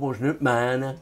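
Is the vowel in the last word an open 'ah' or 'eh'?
eh. The last word has a fronted 'eh' vowel. This is the mountain dialect. "Aber hier im Berg oben sagen sie schon"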